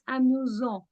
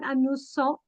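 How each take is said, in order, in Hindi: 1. बीच का व्यंजन z जैसा सुनाई देता है। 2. बीच का व्यंजन s जैसा सुनाई देता है। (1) "we pronounce it Z" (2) "So it's not amusant"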